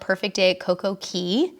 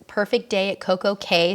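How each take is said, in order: First: The last word sounds like 'key'. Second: The last word sounds like 'kay'. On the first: The speaker calls it right. "we call it Perfect Day at Coco Key" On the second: The speaker calls it wrong. "sounds way more rhymey"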